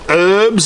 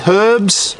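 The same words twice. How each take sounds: First: The word starts without an h sound. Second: The word starts with an h sound. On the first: This is how Americans say it. "not herbs as the Yanks say" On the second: This is how the speaker says it. "Herbs with a H"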